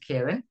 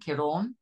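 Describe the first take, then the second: First: The second syllable sounds like 'ran'. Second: The second syllable sounds like 'yawn'. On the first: The speaker calls it wrong. "Only it's not" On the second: The speaker calls it right. "a bit like a yawn"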